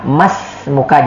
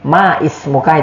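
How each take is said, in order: First: The initial vowel of ismuka is dropped and linked. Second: The initial vowel of ismuka is pronounced separately. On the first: The speaker calls it right. "Tapi kalau misalnya dia di tengah, mas muka" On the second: The speaker calls it wrong. "ma ismuka, itu tidak boleh ya"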